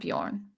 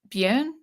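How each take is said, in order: First: The name is said in an English way. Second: The name is said in a Scandinavian way. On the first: The speaker calls it wrong. "not Bjorn" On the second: The speaker calls it right. "it's more pronounced Björn"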